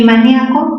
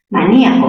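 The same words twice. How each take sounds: First: Maníaco with nia as one stressed syllable; diphthong ia. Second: Maníaco with stressed í split from the a. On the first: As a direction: say maníaco as ma-NYA-co. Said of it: "En ña". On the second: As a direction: break Maníaco as ma-NÍ-a-co. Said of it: "mira, tienes la I cerrada". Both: Shown as a demonstration.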